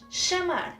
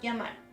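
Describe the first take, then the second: First: It starts with a sh-like sound. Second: It starts with a y-like sound. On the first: This is how speakers in Argentina say it. "exception in Argentina, they pronounce it like sh" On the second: This is how most Spanish speakers say it. "it's the same sound. J"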